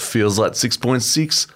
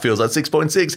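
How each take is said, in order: First: It is read in a polished radio-announcer voice. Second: It is read in a wacky, exaggerated voice. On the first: "can you do it in a better voice?" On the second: "Maybe if you did it in a wacky voice"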